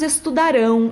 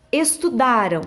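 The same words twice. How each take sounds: First: "estudarão" raised and loud, weight on final "rão"; stressed future ending. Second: "estudaram" stressed on "da", ending in a weak "ram"; past-tense stress. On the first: Teacher showing pupils the "ão" future, final stress on "estudarão". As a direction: stress the last syllable of "estudarão". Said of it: "aqui que vai a terminação do ão". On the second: Teacher showing the "am" sound of the past, stress on "da" in "estudaram". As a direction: let the last syllable of "estudaram" fall away. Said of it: "com o sonzinho de am". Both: Shown as a demonstration.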